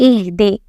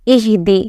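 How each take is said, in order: Both takes have the same delivery.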